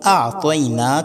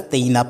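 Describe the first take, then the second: First: The first vowel is long. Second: The first vowel is short. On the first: The speaker calls it right. "बल्कि आतईना कल कौसर है" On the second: The speaker calls it wrong. "अक्सर लोग अतईना पढ़ लेते हैं"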